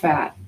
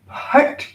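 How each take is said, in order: First: It begins with an f sound. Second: It begins with a puffed p sound. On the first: The speaker calls it wrong. "It's not fat" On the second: The speaker calls it right. "it's an aspirated ph. Puh, puh"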